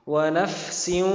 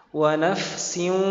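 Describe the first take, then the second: No difference in how they are said.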